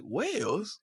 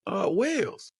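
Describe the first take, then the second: First: Put-on high London-accented echo, rising sharply; high mock London query; imitated incredulous Londoner. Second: High, faked British answer; imitated friend faking a Londoner; put-on London accent. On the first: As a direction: mimic a Londoner's disbelieving question. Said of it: "He was like". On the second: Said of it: "trying to put on the accent".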